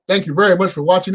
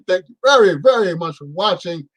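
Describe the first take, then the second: First: The words are mumbled and unclear. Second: The words are spoken nice and clearly.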